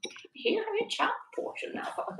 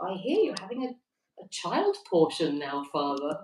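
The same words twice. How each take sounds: First: An Irish accent attempted in a whisper; hushed Irish lilt, barely voiced; trying the Irish voice quietly and failing. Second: Put-on reading a chat comment in a light Irish accent; a quick Irish lilt on the priest joke; mock Irish priest voice. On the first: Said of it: "I can't do it Irish accent quietly". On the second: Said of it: "I can't do it Irish accent".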